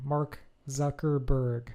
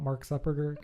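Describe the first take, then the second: First: "Zuckerberg" slow, every syllable clear; "Mark Zuckerberg" said slowly and precisely; careful correction. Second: "Zuckerberg" slurred like "Suppergah"; "Zuckerberg" garbled, consonants smeared; misspoken name. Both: Real, not acted. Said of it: "I think I said that wrong".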